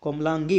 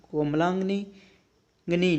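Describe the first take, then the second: First: कोमलांगी ending in "gee"; corrected form. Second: कोमलांगिनी with an extra "ni"; incorrect form. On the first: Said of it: "इसमें नी नहीं आएगा". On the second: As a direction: slowly say कोमलांगिनी as "komlaang-ni". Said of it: "कोमलांगिनी नहीं होता". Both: Shown as a demonstration.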